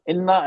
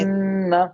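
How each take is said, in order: First: The n is short with no nasal hold. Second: The n is held nasally for a while. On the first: The speaker calls it wrong. "ऐसा नहीं पढ़ते ना" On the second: The speaker calls it right. "हमने नून को थोड़ा रोक लिया नाक में"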